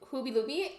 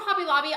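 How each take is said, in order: First: The vowels are changed to a silly oo sound. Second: The vowels are pronounced in the ordinary way.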